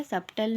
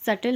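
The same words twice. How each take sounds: First: "सब्टल" with the b wrongly pronounced; sounded b. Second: "सटल" said with no b sound; silent b. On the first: Teacher showing students the mistake to avoid, b pronounced in "सब्टल". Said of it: "सब्टल नहीं होता". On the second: Teacher showing students the silent b, correct pronunciation "सटल". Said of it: "बी silent रहता है". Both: Shown as a demonstration.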